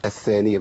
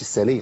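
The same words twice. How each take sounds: First: "الثانية" with a th, tongue at the teeth; clear interdental tha. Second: "الثانية" as "as-saniya"; tha turned to s. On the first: Teacher correcting a student's word, "الثانية" with a clean th. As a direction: say "الثانية" as "ath-thaniya". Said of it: "مش الثانية". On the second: Teacher echoing the wrong form, "الثانية" said with s. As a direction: hiss the th of "الثانية" into a plain s. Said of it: "لو قلنا الثانية ما تنفعش". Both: Shown as a demonstration.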